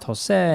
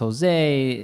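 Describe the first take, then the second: First: The name is said with a Spanish pronunciation. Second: The name is said with an English pronunciation. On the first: "in Spanish is pronounced" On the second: "in English it's pronounced"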